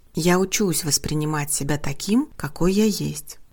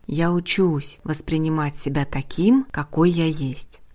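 Both takes have the same delivery.

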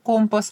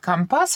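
First: The stress is on the first syllable. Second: The stress is on the second syllable. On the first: This is the usual standard pronunciation. "вместо «компас»" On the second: This is how sailors say it. "моряки говорят «компас»"

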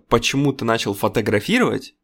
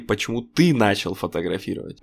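First: The stress falls on the word фотографировать. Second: The stress falls on the word ты. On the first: Asks why photography was chosen over other activities. "Вместо вопроса" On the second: Asks about the person's own reasons and self. "люди слышали"

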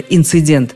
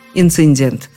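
First: It has no extra n before the d. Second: It has an extra n before the d. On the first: The speaker calls it right. "Редкий умница скажет, как надо" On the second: The speaker calls it wrong. "Чаще говорят"

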